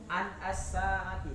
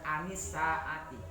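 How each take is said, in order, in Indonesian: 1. Vokal setelah n adalah a. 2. Vokal setelah n adalah i. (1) "Anasaati tidak boleh"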